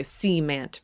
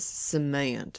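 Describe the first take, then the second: First: "cement" as SEE-ment, opening syllable stressed; drawn-out first syllable in "cement", Southern Midland style. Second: Said in the usual way. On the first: Shown as a demonstration. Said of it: "emphasis on, like, the opening part of a word". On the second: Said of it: "that difference in, uh, pronunciation".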